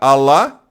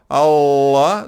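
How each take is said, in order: First: The L sound is short. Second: The L sound is held longer. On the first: "seria um L só" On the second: "dois L's"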